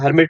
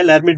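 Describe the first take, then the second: First: The word begins without any L sound. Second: The word begins with an audible L sound. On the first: "हर्मिट जिसमें एल silent रहता है" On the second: "लैरमिट जिसमें आप पूछा जा सकता है"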